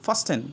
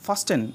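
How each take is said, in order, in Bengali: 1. মাঝখানে T উচ্চারিত হয়। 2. মাঝখানে T উচ্চারিত হয়।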